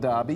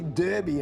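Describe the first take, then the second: First: Derby is said in a non-Western Australian way. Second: Derby is said the Western Australian way. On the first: The speaker calls it wrong. "not Derby" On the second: The speaker calls it right. "as we say in W A"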